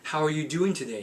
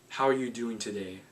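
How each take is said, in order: First: The voice rises upward at the end. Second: The voice stays level at the end. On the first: The speaker calls it wrong. "So that's up talk" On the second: The speaker calls it right. "Neutral talk is this"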